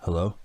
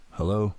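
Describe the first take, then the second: First: Said in the usual way. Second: Mildly annoyed hello, rising; a touch of irritation in the question. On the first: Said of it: "he said". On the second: A narrator's reading. Father answers the silent phone a second time, annoyed. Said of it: "he said, sounding annoyed".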